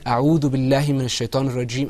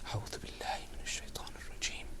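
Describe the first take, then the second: First: It is said out loud. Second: It is said quietly to oneself.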